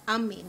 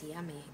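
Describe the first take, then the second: First: "Ummy", yummy without its first y sound; toddler's version of yummy. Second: Said in the usual way. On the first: Retold or imitated. Parent translating toddler talk, "Ummy" without the y. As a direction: drop the y and say "Ummy". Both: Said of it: "Ummy means yummy".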